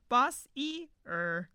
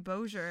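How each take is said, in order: First: Every letter of the name is sounded out. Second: The name is said in a shortened form. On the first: The speaker calls it wrong. "We were pronouncing every letter" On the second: The speaker calls it right. "that's what someone we know from Texas said too"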